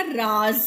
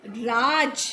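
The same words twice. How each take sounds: First: राज said with a buzzing z, like raaz; teacher reading राज़ with nukta; z sound. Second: राज with a plain j sound; teacher reading राज without nukta. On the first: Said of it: "क्या उच्चारण होगा". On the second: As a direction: say राज with an ordinary j. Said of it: "राज का क्या मतलब". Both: Shown as a demonstration.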